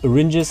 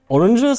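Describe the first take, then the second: First: It is reshaped to sound like 'syringes'. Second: It is said with its ordinary everyday pronunciation.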